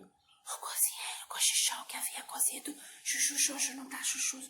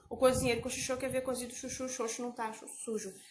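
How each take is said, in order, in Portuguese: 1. É dito em sussurro. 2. É dito em voz normal.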